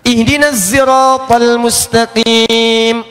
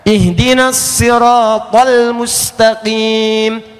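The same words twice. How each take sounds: First: Sirat begins with a buzzing z sound. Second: Sirat begins with an emphatic, heavy s sound. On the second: "pakai sod"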